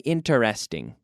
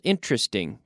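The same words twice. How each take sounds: First: The word is said with four syllables. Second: The word is said with three syllables. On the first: The speaker calls it wrong. "we don't say interesting" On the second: The speaker calls it right. "Three syllables"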